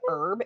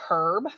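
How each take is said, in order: First: The H at the start is silent. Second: The H at the start is pronounced. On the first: The speaker calls it right. "get her to say herb instead of" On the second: The speaker calls it wrong. "instead of herb"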